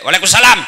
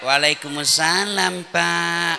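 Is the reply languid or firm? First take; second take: firm; languid. First: It is said in a firm, curt, businesslike way. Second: It is said in a languid, lilting, coy way.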